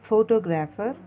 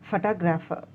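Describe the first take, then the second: First: It is said the common Indian way. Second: It is said following the dictionary transcription. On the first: The speaker calls it wrong. "in India we are pronouncing it as photographer" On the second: The speaker calls it right. "the correct phonetic script is phonetic uh, transcription is photographer"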